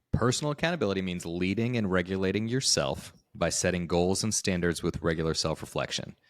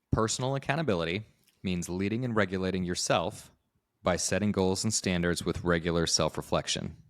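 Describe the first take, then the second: Both takes have the same delivery.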